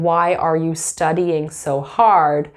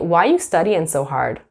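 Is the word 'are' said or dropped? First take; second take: said; dropped. First: The word 'are' is clearly pronounced. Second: The word 'are' is dropped entirely. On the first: "instead of saying" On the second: "We might say"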